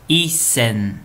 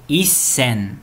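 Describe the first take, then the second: Both takes have the same delivery.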